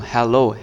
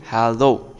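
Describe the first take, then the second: First: হ্যালো said as a plain Bangla "helo", the mistaken version; teacher demonstrating the pronunciation to avoid, হ্যালো; wrong way to say hello. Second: হ্যালো said with a clear open "hello"; correct hello. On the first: Teacher to kids, showing the wrong হ্যালো. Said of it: "হ্যালো নয় কিন্তু". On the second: Teacher to kids, modelling correct হ্যালো. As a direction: model the right হ্যালো for the class. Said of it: "বলতে হবে কি হ্যালো". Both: Shown as a demonstration.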